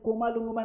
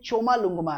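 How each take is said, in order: First: The name begins with a 'k' sound. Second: The name begins with a 'ch' sound. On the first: The speaker calls it wrong. "कोमा लुंगमा नहीं है" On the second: The speaker calls it right. "ये चोमा लुंगमा है"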